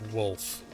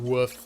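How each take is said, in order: First: The word is said with an L sound. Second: The word is said without an L sound. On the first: The speaker calls it right. "I do in fact know the correct pronunciation is wolf" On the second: The speaker calls it wrong. "I find saying woof to just be more entertaining"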